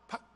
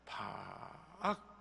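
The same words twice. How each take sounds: First: It is said quickly and sharply. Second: It is said slowly and drawn out.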